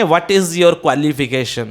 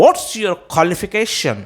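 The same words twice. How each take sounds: First: Slow question with qualification as "kwalification"; wrong pronunciation. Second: Slow, higher question, qualification as "kholification"; airy KHO, no W, in qualification; right pronunciation. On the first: Teacher showing what not to say, qualification as "kwalification". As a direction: keep the KW glide in qualification. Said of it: "यूँ नहीं बोलेंगे". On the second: Teacher modelling the correct question, qualification as "kholification". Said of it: "बोलेंगे". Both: Shown as a demonstration.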